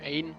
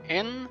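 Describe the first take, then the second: First: The name is said with English pronunciation. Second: The name is said with French pronunciation. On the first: "English uh, it's pronounced Ain" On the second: "in French it is called N"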